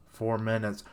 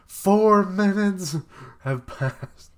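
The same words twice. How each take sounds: First: Said in the usual way. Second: "Four minutes" bellowed much higher and louder, stretched very slow; big dramatic shout. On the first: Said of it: "reads the panel first in a plain voice". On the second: Shown as a demonstration. Reader rereading the time with a stunned, slow shout. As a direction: announce it like a stunned crowd. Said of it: "rereads the panel as a big slow shout".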